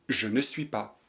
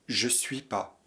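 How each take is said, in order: First: The word ne is clearly pronounced. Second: The word ne is left out.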